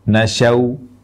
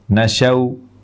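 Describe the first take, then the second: First: Short first vowel, ending in a w sound. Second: Short first vowel, ending in a w sound.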